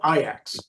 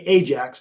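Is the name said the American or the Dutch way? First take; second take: Dutch; American. First: It is said with a Dutch pronunciation. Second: It is said with an American English pronunciation. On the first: This is how the club's name is actually said. "but it's called Ajax" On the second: This is how Americans usually say the name. "We would say Ajax"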